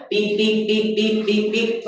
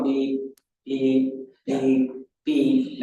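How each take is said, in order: First: Quicker, higher imitated beeps; fast close beeps. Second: Slow, evenly spaced imitated beeps. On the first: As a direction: rattle off beeps close together. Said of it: "Now it's going". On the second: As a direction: beep slowly like the old crossing signal. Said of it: "instead of going".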